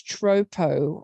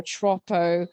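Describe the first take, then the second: First: "Tropo" as TROH-poh, open long first vowel; Tropo pronunciation. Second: "Troppo" as TROP-oh, short clipped first vowel, drawn out; Troppo pronunciation. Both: Retold or imitated. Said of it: "debate over here as to whether it's Tropo or Troppo".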